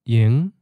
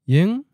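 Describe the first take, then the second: First: The tone rises from a low starting pitch. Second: The tone rises from a mid starting pitch. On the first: It means idle or not busy. "So low-rising" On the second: It means tonight. "now mid-rising"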